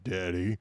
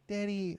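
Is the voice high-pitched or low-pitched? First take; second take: low-pitched; high-pitched. First: It is said in a low pitch. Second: It is said in a high pitch.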